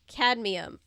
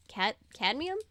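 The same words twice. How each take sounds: First: Said in the usual way. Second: "cadmium" restarted, ending on a doubtful rise; unsure pronunciation check. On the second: Shown as a demonstration. Reader double-checks the word "cadmium", questioning. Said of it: "I think that's right".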